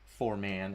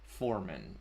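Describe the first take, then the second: First: The stress is on the second syllable. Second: The stress is on the first syllable. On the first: "instead of" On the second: "like emphasis on the first syllable"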